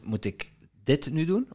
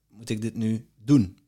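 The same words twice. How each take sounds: First: The stress falls on the word dit. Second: The stress falls on the word moet. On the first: Maybe other tasks matter more. "Of zijn er andere dingen die belangrijk zijn die ik moet doen?" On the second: Maybe it need not be done at all. "Of hoeft het helemaal niet?"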